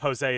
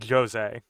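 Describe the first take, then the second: First: The name begins with an H-like sound. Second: The name begins with a Z-like sound. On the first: "it is using the Spanish pronunciation" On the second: "the French pronunciation of Jose is Jose with with like a Z, Z sort of lead in"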